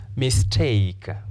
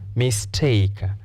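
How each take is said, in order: No difference in how they are said.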